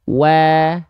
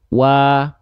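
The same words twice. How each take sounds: First: Said while smiling, with a thinner, lighter sound. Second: Said without smiling, with a fuller, thicker sound. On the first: "kalau kita lafalkan sambil senyum" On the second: "wawunya kita lafalkan tanpa senyum"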